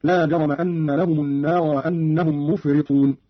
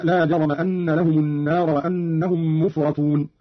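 First: مفرطون said "mufritun", i after the r; kasra on ra. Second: Said in the usual way. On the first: Shown as a demonstration. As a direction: give the ra of مفرطون a short i. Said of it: "بكسر الراء". (كسر الراء في مفرطون) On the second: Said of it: "قرأ قالون بكسر الراء".

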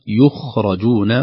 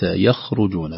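First: يخرجون slowly as yukh-ra-jun; passive form. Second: يخرجون as yakh-ru-jun; the wrong active reading of يخرجون; active form. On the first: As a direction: stress the passive reading of يخرجون. (يُخرَجون بالبناء للمجهول) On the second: (يَخرُجون بالبناء للمعلوم) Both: Shown as a demonstration. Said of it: "وليس".

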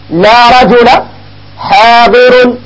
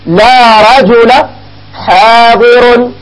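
First: Said in the usual way. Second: Each word drawn out very slowly; slow demo. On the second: Shown as a demonstration. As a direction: spell the example out slowly for students. (مثال يُنطق ببطء شديد) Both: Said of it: "مثلًا تقول".

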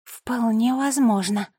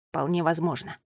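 First: Sister confirming. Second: Said in the usual way. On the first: A narrator's reading. Nola echoes her brother's words, confirming emphatically. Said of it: "подтвердила Нола". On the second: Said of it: "произнёс Финн".

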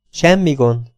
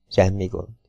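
First: Said in the usual way. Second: Softer, lower murmured repeat, half to himself; quiet repeat. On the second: A narrator's reading. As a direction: let the second one sink down softer and lower. Sam reassures Lilla twice.

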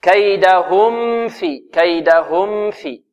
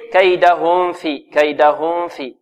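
First: Slow "كيدهم في", mim clear and given medium time; medium-length mim. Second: "كيدهم في" with the mim blurred into the fa; student's mistake. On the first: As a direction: give the mim of "كيدهم" its measured time before "في". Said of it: "يعني زمن متوسط". (إظهار ميم «كيدهم» بزمن متوسط قبل «في») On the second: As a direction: demonstrate the wrong hidden mim in "كيدهم", held before "في". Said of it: "بعض الطلاب يقول". (إخفاء الميم في «كيدهم في» خطأً) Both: Shown as a demonstration.

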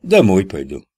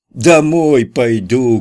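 First: Said in the usual way. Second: Louder, higher and slow, drawn-out shout. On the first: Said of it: "невпопад ответил Кутя". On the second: A narrator's reading. Kutya repeats himself after being told to speak louder, slow loud shout. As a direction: shout it so he's heard. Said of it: "крикнул Кутя".

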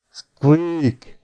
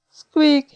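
First: Oafish, long-drawn squeak; clumsy bellowed squeak. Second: Short, very high squeak; high rodent squeak; dormouse reply. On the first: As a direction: botch the animal call with a long bellow. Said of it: "bődült el az ifjonc". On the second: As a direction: answer like a tiny dormouse. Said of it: "A pele neki is válaszolt". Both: A narrator's reading.

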